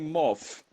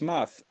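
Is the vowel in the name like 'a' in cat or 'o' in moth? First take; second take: o; a. First: The vowel is an 'o' sound, with an f-like ending. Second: The vowel is an 'a' sound, with a th ending. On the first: The speaker calls it wrong. "they say moth" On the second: The speaker calls it right. "It's math"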